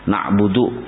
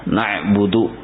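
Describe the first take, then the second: Both takes have the same delivery.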